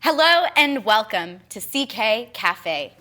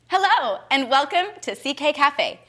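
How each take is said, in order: First: It sounds like a formal news reporter. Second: It sounds relaxed and casual, not reporter-like.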